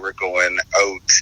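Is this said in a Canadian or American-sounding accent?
Canadian. It is said in a Canadian accent.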